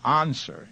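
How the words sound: The word is said with a British accent. "He says answer ... classic British English"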